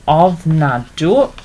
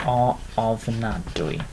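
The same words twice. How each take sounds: First: Ofnadw with open final "u", rising at the end; short form ofnadw. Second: Ofnadwy with an "ee" sound on the end, softer, slower and falling; ofnadwy drawn out slowly, the final y as "ee"; full form ofnadwy. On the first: Teacher to learners, modelling ofnadw clearly. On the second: Teacher to learners, modelling the longer ofnadwy quietly. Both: Shown as a demonstration. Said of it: "either ofnadw or ofnadwy".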